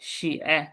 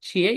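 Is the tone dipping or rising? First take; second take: dipping; rising. First: The word is said with a dipping tone. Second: The word is said with a rising tone. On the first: It means write. "Third tone দিলে অর্থ হয়ে যায় কি রাইট।" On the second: It means shoe. "Second tone দিলে জুতা।"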